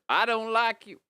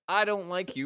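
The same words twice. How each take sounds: First: It is spoken in a Southern American accent. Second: It is spoken in a non-Southern American accent.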